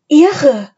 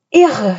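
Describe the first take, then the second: First: High, loud, amazed call; excited call. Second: Mildly awed exclamation, falling; amazed. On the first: Anne calling up from below the treehouse, excited. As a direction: call up in delight, pitch falling. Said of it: "rief Anne von unten". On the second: Philipp on the hilltop seeing it, astonished. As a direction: marvel at the sight. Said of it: "staunte er". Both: A narrator's reading.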